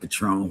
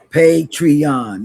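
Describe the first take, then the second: First: It is said with two syllables, like patron. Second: It is said with three syllables, pay-tree-on. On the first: The speaker calls it wrong. "I've been saying it wrong all this while" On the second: The speaker calls it right. "That's what that thing is"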